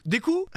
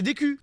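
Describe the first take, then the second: First: Deku ending in "oo", high questioning rise; Japanese-style pronunciation. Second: Deku with a French u, "day-kü"; French pronunciation. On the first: Shown as a demonstration. Streamer checking his pronunciation, Deku as a high "day-koo?". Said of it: "j'ai pas l'accent". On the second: Real, not acted. Streamer naming the hero to partner, Deku Frenchified as "day-kü". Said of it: "je prononce mal".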